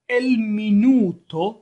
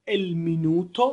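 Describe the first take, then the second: First: "El minuto" drawn out slowly and louder, rising at the end; slow model pronunciation. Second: Said in the usual way. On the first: Shown as a demonstration. Teacher models a new word for students: slow, loud "El minuto". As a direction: stretch out "El minuto" so students can copy it. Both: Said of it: "تکرار بفرمایید به دنبال بنده".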